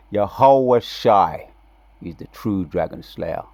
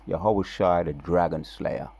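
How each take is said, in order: First: Yahweh Shai drawn out slow and louder, then dropping; emphatic proclamation. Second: Said in the usual way. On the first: Shown as a demonstration. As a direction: declare Yahweh Shai slowly like a verdict.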